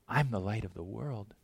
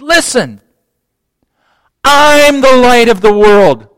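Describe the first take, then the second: First: It is said softly and meekly. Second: It is shouted loudly.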